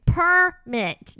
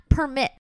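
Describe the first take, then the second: First: PERMIT stretched into two separate beats, loud and higher; corrective stress on permit. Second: PERMIT shorter, run together, louder; contrasting wrong stress. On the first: Daughter teaching mom the right word, PERMIT drawn out and emphatic. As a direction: hammer out PERMIT syllable by syllable. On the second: Daughter showing mom what not to say, PERMIT shorter and emphatic. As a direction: give PERMIT as the quicker rejected version. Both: Shown as a demonstration. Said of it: "not permit".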